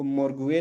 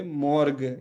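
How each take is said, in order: First: मॉर्गुए with gu-e sounded out at the end; extra gliding syllable ending मॉर्गुए; wrong pronunciation. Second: मॉर्ग slowly, ending in a plain hard g; drawn-out मॉर्ग without a glide; correct pronunciation. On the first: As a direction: say मॉर्गुए with an audible u. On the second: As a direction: say मॉर्ग with the u silent. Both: Shown as a demonstration. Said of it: "इसको मॉर्गुए नहीं पढ़ सकते".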